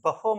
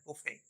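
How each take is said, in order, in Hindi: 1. यह शब्द 'r' ध्वनि से खत्म होता है। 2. यह शब्द 'ay' ध्वनि से खत्म होता है। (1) "बफर माय डियर लर्नर्स ये नहीं होता" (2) "ये एक्चुअली होता है बुफे"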